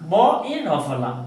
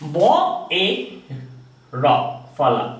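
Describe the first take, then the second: First: The phrase is said shortened and run together. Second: The phrase is said fully and drawn out.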